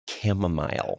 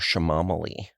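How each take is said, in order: First: The word is said as chamomile. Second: The word is said as shamamali. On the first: The speaker calls it right. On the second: The speaker calls it wrong.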